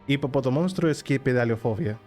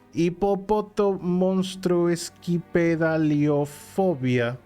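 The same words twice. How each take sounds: First: It sounds natural and confident. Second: It sounds hesitant and unsure.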